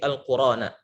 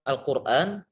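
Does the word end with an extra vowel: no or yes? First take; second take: yes; no. First: The word ends with an added a vowel. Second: The word ends on the final n sound. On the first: The speaker calls it right. "tapi Al-Qur'ana" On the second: The speaker calls it wrong. "bukan Al-Qur'an"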